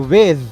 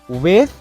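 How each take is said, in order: First: The th sound is hard. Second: The th sound is soft. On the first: "Soft and hard th sound in the word are both accepted" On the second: "Soft and hard th sound in the word are both accepted"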